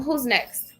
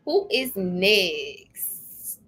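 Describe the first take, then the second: First: Said in the usual way. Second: A slow, sing-song drawn-out call; drawn out slowly. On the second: Real, not acted. Calling for the next querent, very slowly drawn out. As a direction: stretch each word out very slowly.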